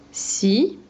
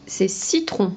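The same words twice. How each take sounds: First: Ci-tron en deux syllabes nettes; sépare Ci et tron; syllabes détachées. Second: Said in the usual way. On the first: Shown as a demonstration. (Ci-tron découpé en syllabes)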